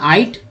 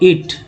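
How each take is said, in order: First: The vowel is an 'ai' diphthong. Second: The vowel is a short 'i' sound. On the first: The speaker calls it wrong. "जो कि गलत हो जाता ना आइट" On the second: The speaker calls it right. "आई और इट को पढ़ते हैं दोस्तों इट"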